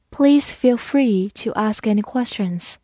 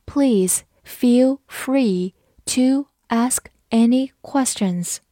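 First: Said in the usual way. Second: Slow, each word spelled out; slow reading. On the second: Shown as a demonstration. Teacher slowing down for the class, slow reading. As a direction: read it slowly for learners. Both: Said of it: "好，慢读一遍".

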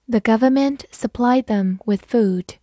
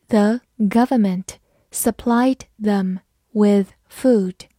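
First: Said in the usual way. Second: Slow, careful word-by-word reading. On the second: Shown as a demonstration. Teacher reading a model sentence slowly for students. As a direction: take it slowly, one word at a time. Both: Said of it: "好，慢慢来读。".

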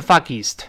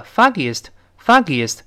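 First: "foggiest" merged as fog-geest; wrong pronunciation. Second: "foggiest" with three syllables, fah-gee-ist; correct pronunciation. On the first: Teacher contrasts the mistake for students, "foggiest" as fog-geest. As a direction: squash "foggiest" into two syllables. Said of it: "而不是foggiest". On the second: Teacher points out the sound, "foggiest" clearly as fah-gee-ist. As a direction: keep the extra vowel in "foggiest". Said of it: "能够听到一个foggiest". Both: Shown as a demonstration.

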